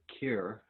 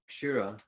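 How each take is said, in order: First: Said shortened, ending on a consonant. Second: Said in full with a final vowel.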